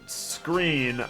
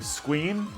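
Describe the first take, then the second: First: The r is pronounced as a normal r. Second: The r is pronounced like a w. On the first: "if I was saying the word screen" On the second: "I would mispronounce R's ... pronounce them as like W's"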